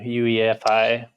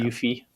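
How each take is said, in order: First: Each letter is spoken separately. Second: It is spoken as a single word. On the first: "I do all the letters like you do" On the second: "instead of"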